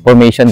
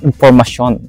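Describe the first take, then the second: First: The word is said with an English-style pronunciation. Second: The word is said with a French-style pronunciation. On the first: This is not how the locals say it. The speaker calls it wrong. "hindi, hindi information" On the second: This is how the locals say it. The speaker calls it right. "kasi yun ang bigkas nila"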